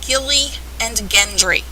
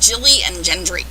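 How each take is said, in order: First: The names begin with a hard G sound. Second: The names begin with a soft J sound. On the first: The speaker calls it right. "hard G's" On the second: The speaker calls it wrong. "I've heard people call them Jilly and Gendry"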